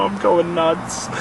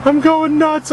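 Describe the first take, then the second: First: Slow, drawn-out admission of losing it; stretched-out, weary confession; worn-out muttering. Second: High-pitched, worked-up cry; real rising exasperation, pitched way up; frantic outburst. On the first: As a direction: say it slowly, at the usual pitch. Says he is losing it. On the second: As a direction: burst out as if losing it. Repeats it, worked up. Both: Real, not acted.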